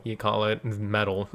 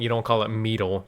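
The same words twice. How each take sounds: First: "metal" said as "meddle", with a short e and a soft d; correct pronunciation. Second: "metal" said wrongly as "meetal", with a long ee; wrong pronunciation. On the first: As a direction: say "metal" plainly as "meddle", the right way. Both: Shown as a demonstration.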